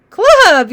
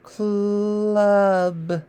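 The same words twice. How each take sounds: First: "Club" quick, higher and louder; fast whole word. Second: "Club" stretched softly in one breath; slow slide. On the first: Teacher showing the fast version after slow practice. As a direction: snap out "Club" fast and bright. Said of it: "then we can get faster". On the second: Teacher modelling slow blending, drawn out. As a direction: draw out "Club" smoothly. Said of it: "start sliding". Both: Shown as a demonstration.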